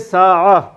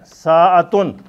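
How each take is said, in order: First: The word ends on an open vowel, t silent. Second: The word ends with a full 'tun' syllable. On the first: This is the form used when stopping. "लेकिन बोलेंगे साआ" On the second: This is the full written form. "साअतुन लिखने में ऐसा है"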